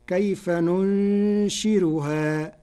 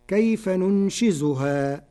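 First: Slow recitation with a light r in "ننشرها"; Warsh reading with light r. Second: "ننشزها" with a clear z sound; slow recitation with zay in "ننشزها"; recited verse, standard reading. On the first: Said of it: "بالراء بدلا من الزاي ... ورقق الراء فتصير". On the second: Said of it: "قرأ ورش كلمة ننشزها بالراء بدلا من الزاي". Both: Shown as a demonstration.

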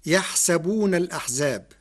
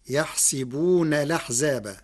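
First: يحسبون as yaḥsabūna, with a after the sin; الأحزاب with its hamza sounded, يحسبون as yaḥ-sa-boon; fatha on the sin. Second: يحسبون as yaḥsibūna, with i after the sin; يحسبون الأحزاب run together as yaḥsibūna laḥzāba, hamza dropped; kasra on the sin. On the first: Lecturer reciting the verse before Warsh's variant, yaḥsabūna. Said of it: "قرأ ورش كلمة يحسبون". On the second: Lecturer showing how Warsh reads it, yaḥsibūna laḥzāba. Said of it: "بكسر السين". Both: Shown as a demonstration.

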